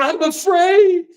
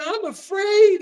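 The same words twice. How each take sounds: First: High, slow mock whimper; mock fearful whine. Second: Even higher mock whimper; mock fearful whine. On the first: Mocking the MSNBC anchor in a high scared voice. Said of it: "And she's going". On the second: Mocking the MSNBC panel in a higher scared voice. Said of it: "And they're going".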